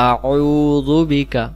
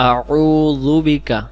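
No difference in how they are said.

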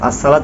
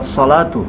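First: The s sound is plain and light. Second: The s sound is heavy and emphatic. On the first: The speaker calls it wrong. "আসসালাতু না বলে" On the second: The speaker calls it right. "বলতে হবে আসসালাতু"

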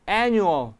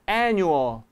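No difference in how they are said.

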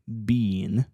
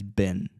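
First: The word is said with a long vowel. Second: The word is said with a short vowel. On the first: This is the full form used on a strong beat. "как это было бы в сильной доле" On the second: This is the reduced form used on a weak beat. "произносится как раз как мусорное ведро через been"

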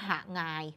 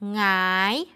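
First: The word is said as two syllables. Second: The word is said as one syllable. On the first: The speaker calls it wrong. "ไม่มีใครอ่านว่าหางาย, มันจะมีสองพยางค์" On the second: The speaker calls it right. "หงายก็มีหอนำและอ่านว่าหงาย"

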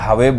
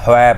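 First: The word sounds like 'hwe' with a full w. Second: The word sounds like 'hoi' with a short o. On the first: The speaker calls it wrong. "ਜੇ ਹਵੇ ਬੋਲਦੇ ਹੋ ਉਹ ਗਲਤ ਹੋ ਗਿਆ" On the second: The speaker calls it right. "ਹੁਣ ਇਹਦੇ ਵਿੱਚ ਹੋਇ ਪਾਠ ਕਰਨਾ"

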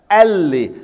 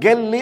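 First: The word begins with a glottal stop. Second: The word begins with a hard g sound. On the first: "Some others, they change it to hamza" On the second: "We change the sound of the letter qaf into ga"

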